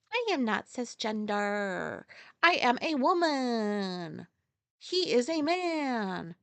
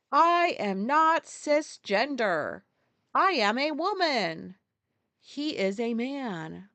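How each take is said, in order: First: Slow, deadpan mock repeat; replaying the clip for viewers, slow mocking; mocking quote again. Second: Slow, emphatic mock politician; retelling a politician to viewers, slow mocking emphasis; mocking quote. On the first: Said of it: "this fucking pube sitting there like". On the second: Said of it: "one of the pubes was like".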